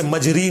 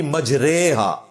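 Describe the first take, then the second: First: मजरी with a long ee at the end; मजरी, ending "ree" rather than "ray"; ee-vowel reading. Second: मजरेहा with a long drawn ay in रे; मजरेहा recited as maj-RAY-ha; majhool vowel. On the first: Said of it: "उसे मजरी नहीं पढ़ना". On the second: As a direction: stretch "ray" slowly in मजरेहा. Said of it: "जो उस style में पढ़ा जाता है". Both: Shown as a demonstration.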